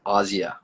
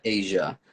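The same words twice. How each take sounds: First: "Asia" said AH-zee-uh; name's true pronunciation. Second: "Asia" said AY-zhuh, like the continent; as spelled. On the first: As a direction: say "Asia" with an open AH and a z. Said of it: "but it's pronounced Asia". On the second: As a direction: say "Asia" with AY and a zh sound. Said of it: "Her name is spelled like Asia". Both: Shown as a demonstration.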